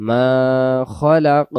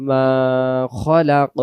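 The two takes are said the same way.

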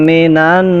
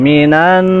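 Both takes have the same delivery.

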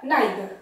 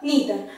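First: The first vowel sounds like 'eye'. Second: The first vowel sounds like 'ee'.

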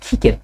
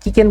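First: The k sound is aspirated, like kh. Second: The k sound is plain and unaspirated. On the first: "অর্থাৎ কটাকে খর মতো শোনা যায়" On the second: "মূলত আমরা কিকেন বলি"

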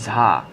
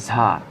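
Both takes have the same delivery.

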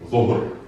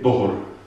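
First: The word begins with a z sound. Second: The word begins with a d sound. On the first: This is the standard Arabic form. "in un buon arabo bisogna pronunciare" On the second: This is the Jerusalem dialect form. "dico l'aziz e dohor"

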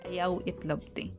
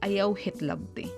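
First: The second word begins with a vowel sound. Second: The second word begins with an H sound.

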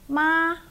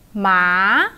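First: The pitch stays high and level throughout. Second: The pitch rises from low to high. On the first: "So the high flat tone" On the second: "And the rising one"

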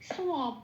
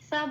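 First: It starts with a rounded 'swa' sound. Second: It starts with a plain 'sa' sound. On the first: The speaker calls it right. "এর উচ্চারণটা কিন্তু হবে সোয়াব বলে" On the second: The speaker calls it wrong. "এবার যখন আমি এটাকে সাব বলে উচ্চারণ করব"

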